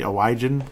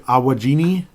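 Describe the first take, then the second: First: The name ends in a short 'an' sound. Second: The name ends in an added 'ini' sound. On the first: This is the family's own pronunciation. The speaker calls it right. "That's our last name. That's how it's pronounced" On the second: A caller gets the name wrong. The speaker calls it wrong. "can I speak to George"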